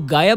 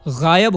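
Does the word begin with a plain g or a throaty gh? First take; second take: plain g; throaty gh. First: It begins with a plain hard g sound. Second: It begins with a throaty gh sound. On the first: The speaker calls it wrong. "आज तक मैं ये गलत बोलता आया था" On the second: The speaker calls it right. "गायब होता है"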